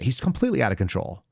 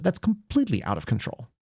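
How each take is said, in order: First: Said in the usual way. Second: Higher, sarcastic lift on completely; sarcastic mimicry, completely raised and sing-song; mocking sarcastic repeat. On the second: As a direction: poke fun at the calm claim by pitching completely up. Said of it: "She says it while completely in control".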